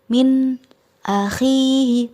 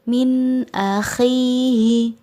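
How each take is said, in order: First: The phrase is broken off between the words. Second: The phrase flows without any break between words. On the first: The speaker calls it wrong. "tidak memutus bacaan, tidak" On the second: The speaker calls it right. "tetapi harus mengalir"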